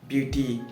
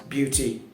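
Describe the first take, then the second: The two takes are said the same way.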